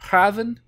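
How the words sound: The name is said with a Dutch pronunciation.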